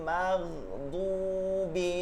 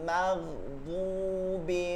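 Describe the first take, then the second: The two takes are said the same way.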